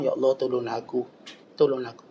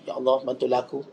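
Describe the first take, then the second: First: The plea is said earnestly, with feeling. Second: The plea is said flatly, without expression.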